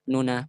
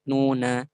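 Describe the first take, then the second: First: The first vowel is quickly shortened. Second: The first vowel is given full length. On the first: The speaker calls it right. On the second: The speaker calls it wrong.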